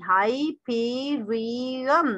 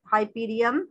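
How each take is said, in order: First: हाइपीरियम drawn out as हाइ-पी-रि-यम; slow, stretched हाइपीरियम in four beats; syllable by syllable. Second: Said in the usual way. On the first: Shown as a demonstration. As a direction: dwell on each syllable of हाइपीरियम. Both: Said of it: "हाइपीरियम के four हिज्जे बनते हैं".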